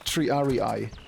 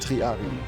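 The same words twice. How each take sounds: First: The word is pronounced with English-style Latin sounds. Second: The word is pronounced with Italian-style Latin sounds. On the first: "that's how you pronounce it in English" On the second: "If you base it on Italian"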